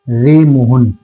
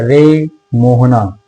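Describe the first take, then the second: First: The name ends with a short vowel. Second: The name ends with a long, drawn-out call.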